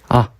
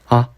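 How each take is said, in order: No difference in how they are said.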